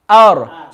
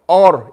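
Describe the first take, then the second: First: The opening vowel is light and smiling. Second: The opening vowel is heavy and rounded. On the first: The speaker calls it right. "you start out smiling and then you make it full" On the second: The speaker calls it wrong. "If you say or, then you made the hamza full mouth as well, which is wrong"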